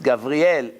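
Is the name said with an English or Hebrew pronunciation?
Hebrew. It is said with a Hebrew pronunciation. The speaker calls it right. "it's Gabriel"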